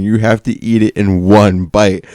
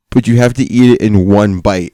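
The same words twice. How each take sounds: First: Slower, spelling out "one bite"; slow insistent repeat. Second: Said in the usual way. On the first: Retold or imitated. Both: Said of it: "No, no, you don't understand".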